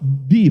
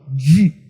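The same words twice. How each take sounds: First: The consonant is a plain d with the tongue behind the teeth. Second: The consonant is a dj sound with clenched teeth. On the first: This is the strict pronunciation that speakers here do not use. "nós não falamos di" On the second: This is how people in this region actually speak. "falamos di, Olha os dentes travados"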